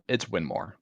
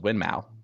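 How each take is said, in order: First: The second syllable sounds like 'more'. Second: The second syllable sounds like 'mow'. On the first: The speaker calls it right. "for the eighty thousandth time, it's Winmore" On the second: The speaker calls it wrong. "it looks like it says Winmau. We've been saying it like that way as an American"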